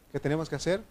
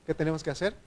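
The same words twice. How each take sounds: The two takes are said the same way.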